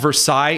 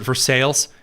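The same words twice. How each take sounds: First: The name is said the original French way. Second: The name is said the local Indiana way. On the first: This is the original name's pronunciation. The speaker calls it right. "we don't have Versailles" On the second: This is how locals say the town name. The speaker calls it wrong. "We pronounce it Versailles"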